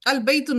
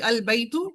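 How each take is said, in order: First: The word ends with an 'un' sound. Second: The word ends with a plain 'u' sound. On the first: The speaker calls it wrong. "अल बैतुन नहीं है" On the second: The speaker calls it right. "अलिफ लाम लगेगा तो एक जब एक एक हरकत होगी।"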